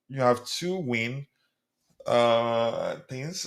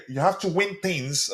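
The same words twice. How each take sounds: First: Slow, halting "two win" read literally as numbers; puzzled misreading. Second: Said in the usual way. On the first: Shown as a demonstration. Host struggling to decode a viewer's abbreviated chat. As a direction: sound out "two win" like it makes no sense.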